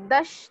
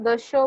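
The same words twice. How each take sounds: First: दश ending on a bare "sh", no final vowel; clipped final sound. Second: दशो with an open "o" after the "sh"; voiced final vowel. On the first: Teacher showing a student the mistake, vowelless ending. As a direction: say दश as "dush". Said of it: "दश नहीं बोलना है". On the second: Teacher correcting a student's number ten, sounded final vowel. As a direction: say दशो as "da-sho". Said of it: "दशो बोलना है". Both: Shown as a demonstration.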